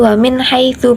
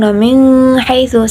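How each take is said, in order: First: The n sound is clear with no hum. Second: The n sound is held with a nasal hum. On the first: The speaker calls it right. "Yang benar yaitu wamin haitsu, bacaan idhar jelas" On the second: The speaker calls it wrong. "bukan wamin haitsu, salah"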